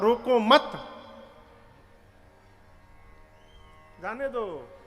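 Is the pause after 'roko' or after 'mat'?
after mat. The pause comes right after 'mat'.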